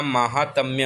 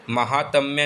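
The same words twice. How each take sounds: First: महात्म्य with long first maa; correct form maahaatmya. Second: महात्म्य with short first ma; wrong form mahatmya. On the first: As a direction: say महात्म्य as MAA-haat-mya. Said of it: "महात्म्य होता है". (सही उच्चारण: 'माहात्म्य') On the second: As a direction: say महात्म्य as ma-HAAT-mya. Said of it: "महात्म्य नहीं होता". (गलत उच्चारण: छोटा 'म') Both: Shown as a demonstration.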